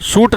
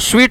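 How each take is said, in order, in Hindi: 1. यह शब्द 'suit' की तरह बोला गया है। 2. यह शब्द 'sweet' की तरह बोला गया है। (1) "सूट नहीं पढ़ना" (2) "इसको स्वीट पढ़ते हैं, उच्चारण कुछ वैसा ही करना जैसे मिठाई वाला स्वीट"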